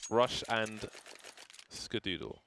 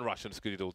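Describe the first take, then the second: First: The names are spoken slowly and clearly apart. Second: The names are spoken quickly and run together.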